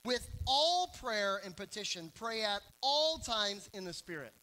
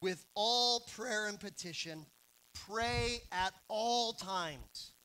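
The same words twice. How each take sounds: First: All leaned on in each phrase; with all prayer, pray at all times, all stressed. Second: Slow, weighty reread of the verse; slow emphatic reading. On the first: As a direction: hit every all. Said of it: "Notice all the alls". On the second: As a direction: pray at all times stretched out very slowly. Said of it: "But what does Paul say?". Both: Shown as a demonstration.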